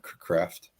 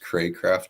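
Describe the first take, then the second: First: The first syllable has a short A sound. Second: The first syllable has a long A sound. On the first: The speaker calls it wrong. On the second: The speaker calls it right. "So it's a long A"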